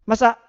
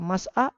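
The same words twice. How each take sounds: First: It is said in a high, angry tone. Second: It is said in a calm, normal tone. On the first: The lecturer is angry at the student. "dengan nada yang tinggi ini" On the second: The student is simply asked to come forward. "dengan uh, kondisi yang normal"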